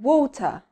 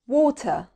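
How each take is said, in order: First: It is said with a British accent. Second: It is said with a British accent.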